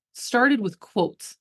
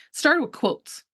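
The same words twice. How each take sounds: First: Drawn out slowly, each word weighted; slow right down to drive it home; slow emphatic repeat. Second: Said in the usual way. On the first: Shown as a demonstration. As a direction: savor every word.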